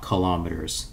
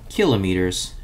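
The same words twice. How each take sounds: First: The stress is on the second syllable. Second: The stress is on the first syllable. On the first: The speaker calls it wrong. "and not kilometers" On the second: The speaker calls it right. "the proper pronunciation is kilometers"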